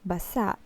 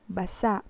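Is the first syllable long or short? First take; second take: short; short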